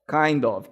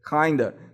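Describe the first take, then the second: First: The two words are said fully and separately. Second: The two words are reduced into one.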